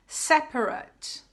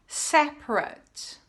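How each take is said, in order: The two takes are said the same way.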